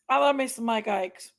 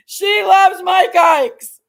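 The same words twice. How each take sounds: First: Said in the usual way. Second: Higher, louder and slow; loud drawn-out. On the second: Real, not acted. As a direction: stretch it out playfully and loud. Teasing about dog and candy.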